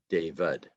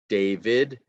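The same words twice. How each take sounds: First: The unstressed vowel is a weak uh sound. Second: The unstressed vowel is a full vowel. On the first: The speaker calls it right. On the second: The speaker calls it wrong.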